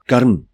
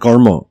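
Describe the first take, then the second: First: It is said the Hindi way, with no final vowel. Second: It is said the Assamese way, with Assamese vowels. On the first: "karm in Hindi" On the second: "and karma in Assamese"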